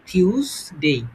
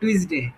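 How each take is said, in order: First: The first consonant is an aspirated t. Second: The first consonant is a plain t. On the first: The speaker calls it right. "এটার সঠিক হচ্ছে আমরা ঠ" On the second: The speaker calls it wrong. "এটা আমরা কি বলি টুইসডে"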